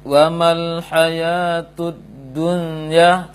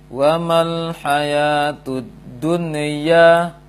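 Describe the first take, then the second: First: The n sound is weak and unclear. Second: The n sound bounces with a rebound. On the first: "tidak jelas" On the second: "Atau dia terpantulkan"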